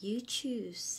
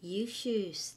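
First: Whispered You choose; whispered demo. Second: Said in the usual way. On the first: Shown as a demonstration. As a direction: breathe "You choose" unvoiced. (กระซิบ You choose) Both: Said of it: "teacher demo".

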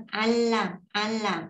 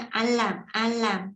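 First: "Al làm" with the L run smoothly on into "làm"; teacher's preferred linked reading, twice; blended reading. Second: "al làm" said slowly, cut short after the L with nothing linking on; slow demo of the short reading, twice; clipped-off reading. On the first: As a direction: let "al" glide into "làm" as one flow. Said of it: "nó có hơi lai thêm chữ này nữa". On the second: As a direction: stop dead after "al" before "làm". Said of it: "người ta chỉ cắt tới đây". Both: Shown as a demonstration.

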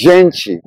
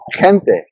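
First: Gente as "ZHEN-chee", soft zh and ch; Brazilian Portuguese pronunciation. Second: Gente starting with an h-like sound, "HEN-teh"; Spanish G. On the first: Teacher showing Brazilian gente, soft zh start and chee ending. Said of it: "closer to the English J in Jeep and the soft". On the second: Teacher showing Spanish gente, h-like first sound and plain t. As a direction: say gente with the j of jalapeño. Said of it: "softer sound, similar to the English H in hero". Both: Shown as a demonstration.

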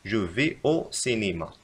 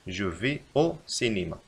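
First: Slow, careful correction; slow dictation. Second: Slow, even reread; slow repeat. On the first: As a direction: dictate it slowly. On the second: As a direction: repeat it slowly. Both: Shown as a demonstration. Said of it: "يجب علينا أن نكتب".

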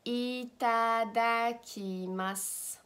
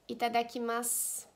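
First: "itadakimasu" stretched out syllable by syllable; slow teaching model. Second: Said in the usual way. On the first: Shown as a demonstration. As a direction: say "itadakimasu" slowly for learners.

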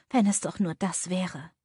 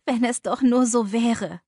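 First: Said in the usual way. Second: Louder, higher anguished moan on nur; despairing, pained outburst; groaning lament. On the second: A narrator's reading. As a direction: cry it out in despair. Ich stöhne auf.

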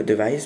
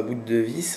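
First: "device" said as one English word, di-VICE; corrected device. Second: "boot de vis" with "de vis" said as two French words, like "de vis"; mispronounced device. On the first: Tutorial host correcting himself, "device" said the English way. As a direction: fix it to "device", English-style, stress on the end. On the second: Tutorial host stumbling on English, "de vis" said in French. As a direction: split "de vis" apart, French style, "deu veess". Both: Real, not acted. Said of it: "excusez-moi pour mon accent".

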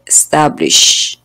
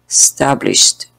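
First: Slow teacher model of "establish" with a trailing sh; present-tense establish. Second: "established" said slowly, with sh and a crisp final t; slow teacher model of "established" ending in sht; past-tense established. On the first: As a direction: model "establish" carefully for the class. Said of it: "Establish es en presente". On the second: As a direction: model the past form "established" with no extra e sound. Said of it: "en pasado es established". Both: Shown as a demonstration.

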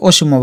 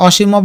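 First: অসীমও with round o, o-shim-o; closed first vowel. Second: অসীমও with open aw, aw-shim-o; open first vowel. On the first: Teacher giving the other option, অসীমও said o-shim-o. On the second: Teacher giving one option, অসীমও said aw-shim-o. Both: Shown as a demonstration. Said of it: "যেটা বলবো ওইটাই ঠিক".

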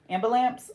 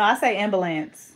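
First: "Ambulance" as am-buh-LAMPS, with a P; loud questioning -amps ending on "Ambulance"; pronounced with P. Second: "ambulance" as AM-buh-lance, no P; loud correction, "ambulance" ending in -ance; own pronunciation. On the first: Retold or imitated. Checking if friend says it with a P, echoed pronunciation. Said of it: "With a P?". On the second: Shown as a demonstration. Telling friend how she says it, own pronunciation. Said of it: "no, I say ambulance".

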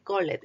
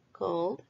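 First: "called" wrongly split in two, "call-ed"; mistaken extra syllable. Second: "called" as "cawld", e silent; one syllable. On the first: Teacher warns pupils how not to say it, extra syllable. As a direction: sound the e in "called", like "coll-et". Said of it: "no se dice". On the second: Teacher corrects the mistake for pupils, one syllable. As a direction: say "called" in one beat with a voiced d. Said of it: "una sílaba". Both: Shown as a demonstration.

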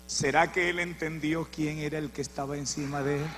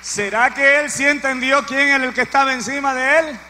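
First: Softer, lower musing question; hushed rhetorical question before the shout; quiet question. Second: Louder, higher repeat of the question; full-force preacher's cry; preaching shout. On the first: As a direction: ask it almost to yourself. Preacher asks quietly, then repeats. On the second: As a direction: hurl the question at the congregation. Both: Real, not acted.

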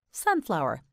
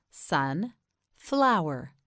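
First: Said in the usual way. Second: "Sun, flower" as two separate words; split in two. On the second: Shown as a demonstration. Teacher models for learner, "Sun, flower" broken in two. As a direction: put a clear pause between "Sun" and "flower". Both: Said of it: "You say it".

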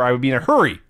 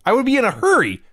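First: Said in the usual way. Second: Much higher, hurry stressed and falling; emphatic repeat. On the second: Shown as a demonstration. Insisting to his co-host he'd rush to pay, emphatic. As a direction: push it up high for emphasis.

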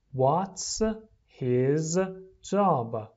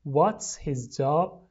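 First: "What's ... his ... job?" with pauses between words; slow, separated model reading for repeating. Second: Said in the usual way. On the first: Shown as a demonstration. Teacher drills the question for repeating, word by word.

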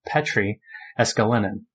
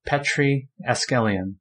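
First: "Eskelinen", full ending -li-nen; corrected surname. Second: "Eskelian", surname ending in -lian, one syllable short; misread surname. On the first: Host correcting a member's name, carefully saying "Eskelinen". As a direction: say "Eskelinen" with the final -nen sounded. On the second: Host reading out member names, misreading "Eskelian". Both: Real, not acted. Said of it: "sorry, Petri Eskelinen".

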